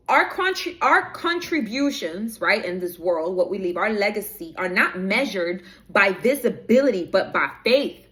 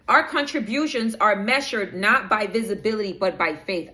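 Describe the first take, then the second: First: Deliberate, stretched key words; slow down and lean on each key phrase. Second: Said in the usual way. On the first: Real, not acted. Rereading the written message to viewers after being told to slow down, slowed delivery. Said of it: "Spirit is telling me to slow down". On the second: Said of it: "I'm speaking a little fast".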